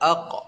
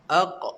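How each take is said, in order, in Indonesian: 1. Huruf q di akhir diucapkan dengan hentakan ringan yang singkat. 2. Huruf q di akhir diucapkan dengan hentakan ringan yang singkat.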